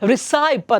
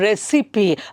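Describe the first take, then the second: First: The ending rhymes with pipe. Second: The ending sounds like sippy. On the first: The speaker calls it wrong. "some people pronounce it as recipe" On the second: The speaker calls it right. "originally it has to be pronounced as a recipe"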